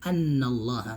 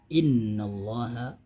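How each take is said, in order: First: The word begins with an 'a' vowel. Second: The word begins with an 'i' vowel. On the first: The speaker calls it wrong. "enggak boleh annallaha" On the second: The speaker calls it right. "dibaca kasroh"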